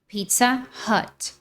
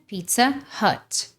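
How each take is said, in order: First: It is said with American English sounds. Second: The same.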